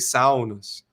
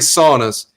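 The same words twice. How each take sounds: First: It has a Finnish-style pronunciation. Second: It has an American English pronunciation. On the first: "they say saunas" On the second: "I say saunas"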